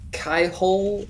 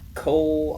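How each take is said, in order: First: The name has two syllables, sounding the Y. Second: The name has one syllable, with the Y silent.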